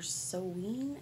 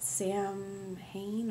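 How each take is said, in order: First: It is said like sow-in, without the h. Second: It is said as spelled, like sam-hane. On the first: The speaker calls it right. "I think is how you're supposed to say it" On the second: The speaker calls it wrong. "I mispronounced this"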